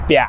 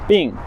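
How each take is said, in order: First: It is said with a Nanchang -iang-like ending. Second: It is said with a standard Mandarin -ing ending. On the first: "In Nanchang-hua, what does that change to? B I N G changes to bia" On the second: "to have an illness in uh, Mandarin, bing"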